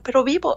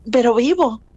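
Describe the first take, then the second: First: "Pero vivo" echoed as a question, rising on "vivo"; incredulous echo. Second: Said in the usual way. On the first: Retold or imitated. Parent echoes mother's news, rising in disbelief. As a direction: repeat "vivo" back as a hopeful, disbelieving question.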